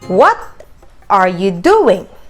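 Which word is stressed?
doing. The stress falls on the word doing. The question is about the activity. "when action is the main focus"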